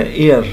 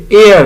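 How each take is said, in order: First: Said in the usual way. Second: ایئر said loud and stressed with a silent h; teacher modelling the word with a silent h; pronunciation demo. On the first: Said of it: "ایئر پڑھتے ہیں اس کو". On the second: Shown as a demonstration. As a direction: punch ایئر, start straight on the vowel. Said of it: "ایچ بالکل silent ہے".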